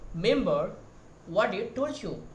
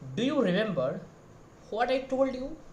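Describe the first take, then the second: First: "Do you" is reduced almost to nothing. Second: "Do you" is pronounced fully and clearly. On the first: This is a more advanced, foreign-sounding way of saying it. "as a foreigner, they are saying that" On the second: This is the usual Indian way of saying it. "The same line as you Indian, we are saying that"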